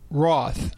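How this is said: The word is said with a British pronunciation.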